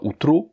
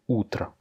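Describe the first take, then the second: First: The final vowel sounds like a full O. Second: The final vowel sounds like an A. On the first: The speaker calls it wrong. "C'est pas outro" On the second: The speaker calls it right. "un O à la fin qui n'est pas accentué, qui se prononce donc comme un A"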